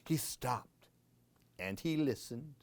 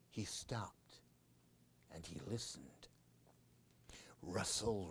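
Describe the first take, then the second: First: Said in the usual way. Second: Hushed whisper; storyteller whispering before the scare; suspense whisper. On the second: A narrator's reading. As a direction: drop to a whisper to build suspense.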